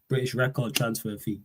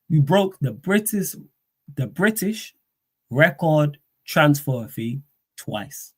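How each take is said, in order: First: Said in the usual way. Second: Tongue-tied, slow halting delivery; stumbling over words. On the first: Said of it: "There we go". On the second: Real, not acted. Streamer fumbling the phrase, slow and tongue-tied. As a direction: trip over the phrase British record transfer fee. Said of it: "I can't talk".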